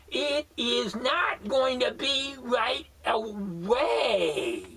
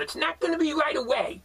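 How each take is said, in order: First: Each word spelled out slowly; slow emphatic repeat. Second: Said in the usual way. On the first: Shown as a demonstration. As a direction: lay it down word by word for a slow listener.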